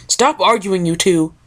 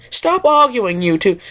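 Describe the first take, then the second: First: Said in the usual way. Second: Much higher, prim Rarity scolding the pair; a lady's sharp scold, pitched way up; Rarity yelling. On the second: Acted. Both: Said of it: "yelled Ri".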